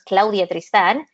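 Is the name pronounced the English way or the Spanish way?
Spanish. The name is said with Spanish pronunciation. This is the name the parents gave. The speaker calls it right. "My name is Claudia Tristan"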